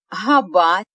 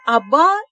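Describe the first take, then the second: First: The h sound is pronounced before the vowel. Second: The h sound is dropped before the vowel. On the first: The speaker calls it wrong. "Можете произнести габа" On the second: The speaker calls it right. "А лучше произнесите аба, и все вас поймут"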